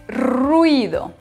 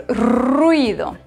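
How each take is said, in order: No difference in how they are said.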